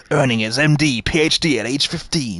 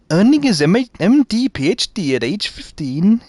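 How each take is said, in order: First: Said in the usual way. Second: Failed Welsh accent. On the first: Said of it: "I'm not going any further with that one". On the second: Shown as a demonstration. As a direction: attempt Welsh lilt on the read-out, badly. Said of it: "you see, I can't do it".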